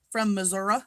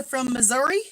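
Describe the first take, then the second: First: "Missouri" ending in an uh sound; regional pronunciation. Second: Said in the usual way. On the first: Shown as a demonstration. Greeting a viewer from Missouri, "Missouri" ending in uh.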